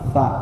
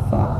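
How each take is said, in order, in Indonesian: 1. Bunyi konsonan ditahan sebelum vokal. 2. Bunyi konsonan ditahan sebelum vokal.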